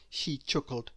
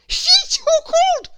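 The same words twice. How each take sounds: First: Said in the usual way. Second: High, loud sobbing cry; crying king. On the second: A narrator's reading. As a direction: bawl the words like a weeping king. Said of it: "cried the king".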